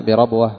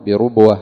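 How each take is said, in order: First: بربوة said "bi-rabwa"; short a after the ra in بربوة; fatha on the ra. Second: بربوة said "bi-rubwa"; short u after the ra in بربوة; damma on the ra. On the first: (بربوة بفتح الراء) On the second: (بربوة بضم الراء) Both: Shown as a demonstration. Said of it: "فتح الراء وضم الراء".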